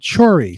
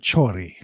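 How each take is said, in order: First: The R is said without a roll. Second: The R is said with a roll.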